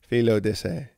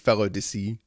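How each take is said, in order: First: The first part sounds like 'Philo', not 'fellow'. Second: The first part sounds like the word 'fellow'.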